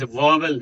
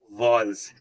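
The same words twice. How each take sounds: First: "वॉवल" said in two syllables, va-vel; wrong pronunciation. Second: "वॉवल्स" as one syllable, vawls; correct pronunciation. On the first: Teacher showing learners the mistake, mispronounced "वॉवल" as va-vel. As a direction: sound out both syllables of "वॉवल". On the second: Teacher correcting learners, "वॉवल्स" pronounced as vawls. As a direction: run "वॉवल्स" together with a long aw. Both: Shown as a demonstration. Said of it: "वॉवल नहीं".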